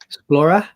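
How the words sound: It is said in a put-on British accent.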